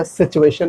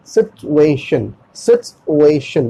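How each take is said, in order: First: सिचुएशन with "chu", the t lost; usual mispronunciation. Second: सिचुएशन slowly as "sit-u-ay-shun"; t pronounced. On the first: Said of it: "इसमें क्या होता था". (सिचुएशन में ट की जगह च) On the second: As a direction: break up सिचुएशन with a clear t. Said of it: "बोलना है". (सिचुएशन में साफ़ ट, धीरे से) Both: Shown as a demonstration.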